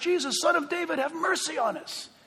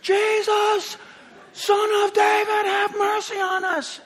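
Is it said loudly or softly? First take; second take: softly; loudly. First: It is said at normal loudness. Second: It is shouted loudly.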